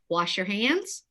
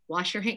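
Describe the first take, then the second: First: The voice rises at the end, like a question. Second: The voice falls at the end, like a command.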